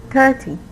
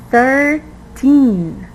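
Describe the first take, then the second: First: Thirteen mis-stressed so that it sounds like thirty, THIR-tee; misplaced stress. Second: Put-on thirteen drawn out in two parts, thir-TEEN, high and falling; stress on TEEN. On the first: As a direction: stress the first syllable, thirty, as a learner's slip for thirteen. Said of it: "you pronounced it wrong". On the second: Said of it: "put the stress in the correct syllable". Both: Shown as a demonstration.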